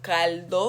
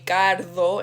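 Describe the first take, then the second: First: It is said with an L, standard style. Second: It is said with an R, Dominican style.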